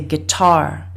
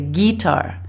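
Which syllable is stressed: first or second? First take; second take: second; first. First: The stress is on the second syllable. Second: The stress is on the first syllable. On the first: The speaker calls it right. "more stress, more energy behind the second syllable" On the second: The speaker calls it wrong. "They put more stress on the first syllable"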